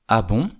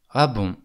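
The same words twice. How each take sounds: First: The pitch rises at the end. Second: The pitch falls at the end. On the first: The speaker is surprised. "avec une intonation ascendante" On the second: The speaker does not believe what they hear. "avec une intonation descendante"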